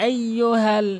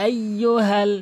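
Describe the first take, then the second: The two takes are said the same way.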